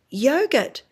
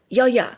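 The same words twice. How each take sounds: First: Said in the usual way. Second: "Yo, ya" for yogurt, second syllable softened to "ya"; child's mispronunciation. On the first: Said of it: "So you say". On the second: Retold or imitated. Therapist quoting Sim at the fridge, child's mispronunciation. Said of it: "that's the way he says yogurt".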